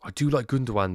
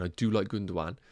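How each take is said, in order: First: "do" hit higher and louder, falling; stress on DO. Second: Said in the usual way. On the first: Real, not acted. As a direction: lean hard on "do" in "I do like Gundogan".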